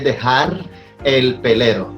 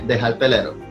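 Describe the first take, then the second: First: Every final sound is clearly pronounced. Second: Final sounds are dropped and words run together. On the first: "We never say dejar el pelero" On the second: "We say dejar pelero. We just like we chew it all together"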